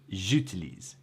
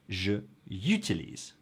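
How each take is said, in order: First: The j flows straight into utilise. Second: A y-like glide breaks before utilise. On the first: The speaker calls it right. "it's j'utilise" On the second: The speaker calls it wrong. "if we add the y sound"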